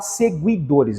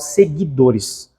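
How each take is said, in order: First: The U after the G is clearly pronounced. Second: The U after the G is silent. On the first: The speaker calls it wrong. "eu não falo seguidores" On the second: The speaker calls it right. "eu falo seguidores. Então são duas letras que produzem um som só"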